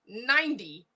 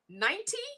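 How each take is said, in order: First: The middle consonant is a soft D sound. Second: The middle consonant is a clear T sound. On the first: "ninety with a D" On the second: "ninety with a T"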